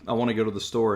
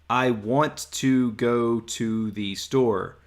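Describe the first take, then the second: First: It is said casually with reduced wanna. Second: It is said carefully with full want to.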